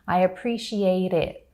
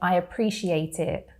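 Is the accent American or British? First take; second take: American; British. First: American accent with a soft tapped T. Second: British accent with a crisp T. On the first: "in American English, they would say it more like I appreciate it. So you have that tap T sound" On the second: "Whereas in British English, we say"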